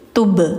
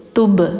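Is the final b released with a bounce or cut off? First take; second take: bounced; bounced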